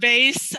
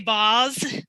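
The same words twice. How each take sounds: First: It is said the plain everyday way. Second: It is said in a fancy, affected way. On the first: This is the ordinary family way. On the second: The speaker is being pretentious.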